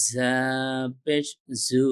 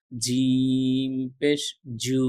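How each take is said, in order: First: জা পেশ জু with a gentle z, not a j; light zaa. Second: জিম পেশ জু drawn slow with a hard Bangla j; jeem like Bangla j. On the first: (হালকা নরম জা-উচ্চারণ) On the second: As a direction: stretch জিম পেশ জু slowly on a firm j. (বর্গীয় জ-এর মতো ধীরে উচ্চারণ) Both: Shown as a demonstration. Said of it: "দুটোর পার্থক্যটা বুঝতে পারবেন".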